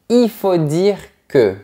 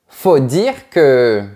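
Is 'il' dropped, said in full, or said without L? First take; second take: without L; dropped. First: The word il is said without its L. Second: The word il is left out entirely. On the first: "sans prononcer la lettre L" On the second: "on retire complètement le sujet il"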